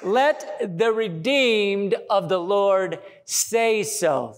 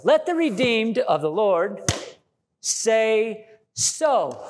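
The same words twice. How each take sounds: First: Scripture reading. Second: "Let the redeemed of the Lord say so" punched like a sermon line; bold, declared scripture; preaching the verse. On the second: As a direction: proclaim it. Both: Shown as a demonstration. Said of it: "It says".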